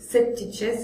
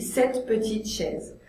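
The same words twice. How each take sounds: First: The E in petite is dropped. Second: The E in petite is pronounced. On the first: The speaker calls it wrong. "c'est trop difficile" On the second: The speaker calls it right. "Je dis cette petite chaise"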